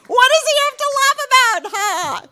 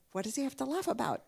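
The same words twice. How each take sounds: First: High, very loud incredulous demand; indignant outburst; exasperated shout. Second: Said in the usual way. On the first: Acted. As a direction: yell the question as if utterly baffled. Shouted repeat of the punchline.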